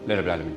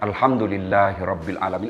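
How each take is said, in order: First: It is said quickly and without feeling. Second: It is said slowly and with feeling.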